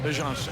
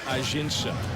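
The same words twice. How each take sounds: First: The name is said with its home-country pronunciation. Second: The name is said with an American pronunciation. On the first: The speaker calls it right. "that's how we pronounce it at home. That's really how you say it" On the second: The speaker calls it wrong. "the American pronunciation is Ajinça"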